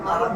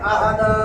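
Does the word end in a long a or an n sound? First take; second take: n sound; long a. First: The word ends with an n sound. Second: The word ends in a long a, no n. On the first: The reader continues without stopping. "আর যদি ... না থামি তাহলে" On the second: The reader stops at this word. "শব্দে শেষে যদি দুই জবরের উপরে থামি এক জবর ফালাইয়া তাহলে এক আলিফ টাইম না পড়বো"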